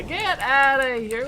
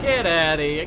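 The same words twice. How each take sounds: First: Higher, loud, slow mock taunt; high drawn-out taunt. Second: Said in the usual way. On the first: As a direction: draw it out, taunting.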